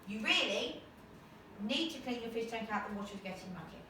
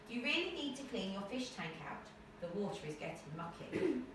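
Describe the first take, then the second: First: The main pause falls somewhere other than between sentences. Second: The main pause falls between the two sentences. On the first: The speaker calls it wrong. "it's not putting the break at the right point in the sentence" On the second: The speaker calls it right. "Alright, that sounds good"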